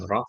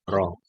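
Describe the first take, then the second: First: The syllable ends with a glottal stop. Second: The syllable ends on an open vowel. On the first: The speaker calls it wrong. "bukan roh" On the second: The speaker calls it right. "tapi ro karena tidak ada hamzah sukun"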